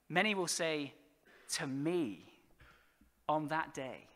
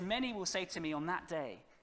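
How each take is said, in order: First: The word me carries strong stress. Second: The word me is not specially stressed.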